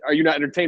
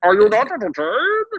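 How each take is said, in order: First: It is said in his normal voice. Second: It is said in a put-on Bane voice.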